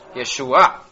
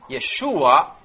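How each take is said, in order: First: The stress falls on the final syllable. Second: The stress falls before the final syllable. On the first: It is the feminine word for salvation. "con el acento en la A final" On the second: It is the masculine form of salvation. "Yeshua es masculino"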